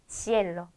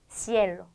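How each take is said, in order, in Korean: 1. 첫 자음은 s 소리입니다. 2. 첫 자음은 s 소리입니다.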